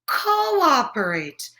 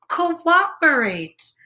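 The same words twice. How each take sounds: First: Slow, drawn-out Cooperate again; patient correction, slowly; slow correcting word. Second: Slow, drawn-out Cooperate; teaching a new word, slowly; slow spelled-out word. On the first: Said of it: "Did someone say operate?". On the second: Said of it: "what's that word?". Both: Shown as a demonstration.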